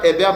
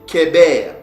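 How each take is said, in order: First: The name begins with an H sound. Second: The name begins with a K sound. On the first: The speaker calls it wrong. "c'est pas Héber" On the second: The speaker calls it right. "mais c'est Kéber, parce que le het a le son du K aussi"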